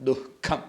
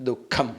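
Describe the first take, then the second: No difference in how they are said.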